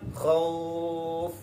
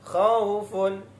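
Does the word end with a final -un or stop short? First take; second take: stops short; with -un. First: The word stops without its final ending. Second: The word keeps its final -un ending. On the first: The reader pauses on the word. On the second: The word is read in continuous flow.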